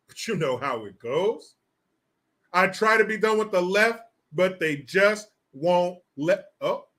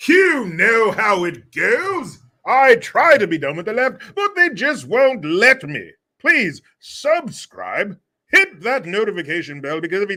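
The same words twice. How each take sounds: First: Said in the usual way. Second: Butler voice. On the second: Shown as a demonstration. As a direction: announce it like a pompous butler. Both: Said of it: "Send it off with your butler voice".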